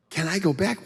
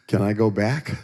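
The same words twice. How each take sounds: First: High-pitched mock repeat of the question; comic disbelief, pitched way up; incredulous self-mockery. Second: Said in the usual way. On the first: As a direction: squeak it in disbelief at yourself. Mocking his own question in disbelief.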